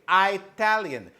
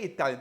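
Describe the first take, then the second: First: The first syllable sounds like 'eye'. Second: The first syllable sounds like 'it'. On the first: The speaker calls it wrong. "They say Italian. I don't like Italian" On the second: The speaker calls it right. "they don't say Italian"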